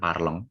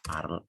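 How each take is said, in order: First: The word ends with a nasal ong sound. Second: The word ends right after the l sound. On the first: The speaker calls it wrong. "Ini bacanya bukan parlong" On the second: The speaker calls it right. "tapi parl aja ya"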